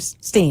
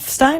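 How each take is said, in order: First: The vowel sounds like the one in 'seen'. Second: The vowel sounds like the one in 'fine'. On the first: "is that Stein or Steen?" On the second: "is that Stein or Steen?"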